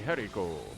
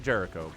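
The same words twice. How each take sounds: First: The name is pronounced the Spanish way. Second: The name is pronounced the English way. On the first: "if it was Spanish, it would be Jericho" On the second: "You say it Jericho"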